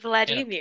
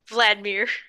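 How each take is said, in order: First: The name is said with three syllables. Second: The name is said with two syllables. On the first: "I thought there was three syllables" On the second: "it's two syllables"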